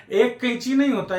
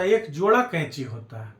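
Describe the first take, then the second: First: Higher denial, weight on नहीं; stress on नहीं. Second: Lower, falling answer leaning on जोड़ा; correcting answer. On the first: Teacher rejecting a wrong count, stressing नहीं. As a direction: pitch it up and hit नहीं. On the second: Teacher giving the right count, settled stress on जोड़ा. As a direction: bring it down through जोड़ा. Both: Shown as a demonstration.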